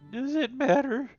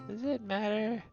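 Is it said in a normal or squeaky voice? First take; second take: squeaky; normal. First: It is said in a high squeaky voice. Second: It is said in a normal voice.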